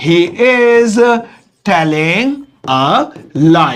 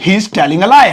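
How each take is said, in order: First: Slow, separated words with pauses; word-by-word dictation. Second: Said in the usual way. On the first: Shown as a demonstration. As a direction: dictate slowly as if writing it out. Dictating word by word while writing. (शब्द-दर-शब्द, धीरे-धीरे लिखवाते हुए)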